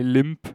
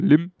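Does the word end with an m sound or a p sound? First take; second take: p sound; m sound. First: The word ends with a p sound. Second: The word ends with an m sound. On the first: This is the standard English pronunciation. "bei Limp" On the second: This is how it is said in Singlish. "das P weggelassen und man sagt nur Lim"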